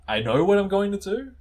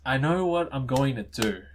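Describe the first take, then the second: First: High, louder line climbing to a question on "do"; questioning rise. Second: Said in the usual way. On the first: Acted. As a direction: make "I know what I'm going to do" sound unsure, rising steeply. Same line redone as question.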